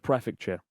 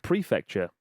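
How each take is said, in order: First: "prefecture" with a short PREF; own pronunciation. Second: "prefecture" with a long PREE; corrected pronunciation. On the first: Author showing his old habit, "prefecture" with short first vowel. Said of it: "instead of prefecture". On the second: Author showing the correction he was given, "prefecture" as PREE-fecture. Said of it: "prefecture instead of prefecture". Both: Shown as a demonstration.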